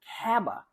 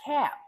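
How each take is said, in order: First: An extra vowel is added after the B. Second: The word ends cleanly on the B sound. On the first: The speaker calls it wrong. "if you're adding a vowel such as kaba" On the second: The speaker calls it right. "until you're used to pronouncing the entire word, which is cab"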